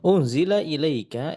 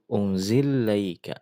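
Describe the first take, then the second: First: The glottal stop is kept and the words stay separate. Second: The glottal stop is dropped and the two l's merge.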